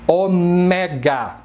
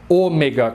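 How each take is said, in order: First: Ômega as o-MÉ-ga, stress on the middle syllable; ômega said o-MEEE-ga, Greek style; Greek pronunciation. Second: Ômega as Ô-me-ga, stress on the first syllable; everyday Brazilian Ô-mega for ômega; Brazilian pronunciation. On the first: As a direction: stretch ômega slowly, leaning on "mé". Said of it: "em grego se fala". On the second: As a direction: hit the opening Ô of ômega. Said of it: "como os brasileiros falam". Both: Shown as a demonstration.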